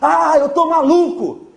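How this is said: It is said loudly, with exclamatory emotion.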